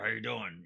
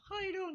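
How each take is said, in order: First: The voice is raspy and deep. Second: The voice is light and friendly. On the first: The character is a drunken, depressed clown. "he has like a raspy, ... type of deeper voice" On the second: The character is cheerful and likeable. "more of a Sesame Street"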